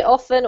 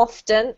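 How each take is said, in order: First: "often" with the T left out, like offen; silent T. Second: "often" with the T pronounced, off-ten; sounded T. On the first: Teacher offering both options, T silent in "often". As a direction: say "often" without a T. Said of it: "if you wanna say often or often". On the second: Teacher offering both options, T sounded in "often". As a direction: say "often" with a clear T. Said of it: "either's fine". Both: Shown as a demonstration.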